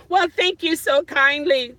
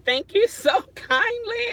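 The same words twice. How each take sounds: First: Said in the usual way. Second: Repeats thanks a bit higher and breaks into a laugh on kindly; real amused thanks. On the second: Real, not acted. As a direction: giggle through the thank-you.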